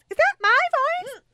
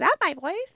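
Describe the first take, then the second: First: Squealed far higher and louder, falling. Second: Much higher, rising question; high surprised squeak. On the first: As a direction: shriek it in mock disbelief. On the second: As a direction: squeak it out in disbelief. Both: Real, not acted.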